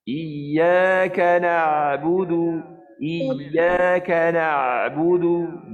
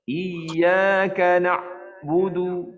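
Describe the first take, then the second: First: Slow chant, ain squeezed then opened; throat narrows on the ain but never closes; right tajwid ain; correct recitation. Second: Ain of na'budu cut off completely; faulty tajwid, ain fully shut; wrong recitation. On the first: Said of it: "dia gaya nak rapat dia buka". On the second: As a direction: stop the ain dead in the throat. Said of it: "Macam tu ke". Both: Shown as a demonstration.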